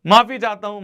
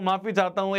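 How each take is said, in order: First: Loud apology. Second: Said in the usual way. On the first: Real, not acted.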